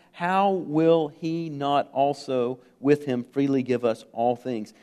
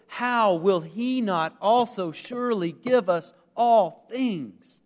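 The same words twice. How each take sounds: First: Said in the usual way. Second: Slow, higher-pitched, amazed emphasis on every phrase of "How will he not also surely give us all things"; emphatic, hopeful declaration. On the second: Shown as a demonstration. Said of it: "it is meant to be read with emphasis".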